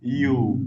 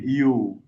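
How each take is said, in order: The two takes are said the same way.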